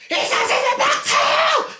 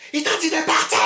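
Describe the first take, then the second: First: Very high screaming, slower, with laughter breaking through; screaming, laughing. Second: High, insistent yell; acted yell. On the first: Retold or imitated. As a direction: scream it at the top of the voice, barely holding back laughter. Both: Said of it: "je commence à crier".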